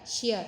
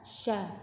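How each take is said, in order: First: A y-glide comes between the sh and the vowel. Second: The sh goes straight into the vowel. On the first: The speaker calls it wrong. "seperti ada y-nya ... jangan dibelokkan syia" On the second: The speaker calls it right. "tapi langsung sya"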